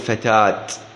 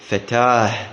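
First: The word ends with a t sound. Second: The word ends with an h sound. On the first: The speaker calls it wrong. "لا تقول فتات" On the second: The speaker calls it right. "عندما تقف عليها تقف عليها بالهاء، تقول مثلا فتاه"

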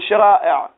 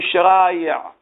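First: The middle sound is a glottal stop. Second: The middle sound is a y sound. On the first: "مع أنه يمكنك أن تقول شرائع" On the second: "ينطقون أكثر بالياء، يقولون شرائع"

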